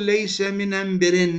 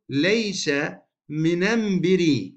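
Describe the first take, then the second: First: The last word ends with an added n sound. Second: The last word ends without an n sound. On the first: The speaker calls it wrong. "ما نقول ليس من بر، لا، لأنه التنوين لا يجتمع مع ال التعريف" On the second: The speaker calls it right. "فنقول ليس من بري"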